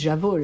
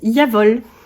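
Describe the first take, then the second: First: The word begins with a 'zh' sound. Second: The word begins with a 'y' sound. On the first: "les podcasteuses, tricoteuses, et cetera qui disent j'avole" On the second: "ça se prononce Yavol"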